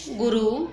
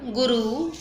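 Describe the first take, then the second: First: गुरु with a short final "u"; short vowel. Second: गुरु with a long final "oo"; long vowel. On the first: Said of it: "छोटी है". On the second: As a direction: draw out the last vowel of गुरु. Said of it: "मात्रा कौन सी बड़ी है". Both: Shown as a demonstration.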